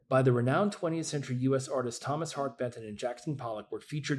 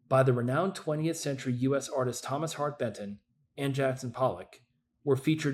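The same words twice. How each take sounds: First: It is read straight through without any pause. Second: It is read with pauses around the names. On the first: The speaker calls it right. "the one with no pause" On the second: The speaker calls it wrong. "if you want to put comma before and after"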